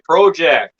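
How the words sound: The word is said in a Canadian accent. This is how the Canadian hosts say it. "they say project"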